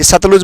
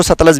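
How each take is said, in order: First: सतलुज with a U in the last syllable; Satluj variant. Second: सतलज with a short A in the last syllable; Satlaj variant. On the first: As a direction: say सतलुज, ending -luj. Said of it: "ये सतलुज बोल देते हैं". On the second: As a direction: say सतलज, ending -laj rather than -luj. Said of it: "सतलज भी बोल देते हैं". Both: Shown as a demonstration.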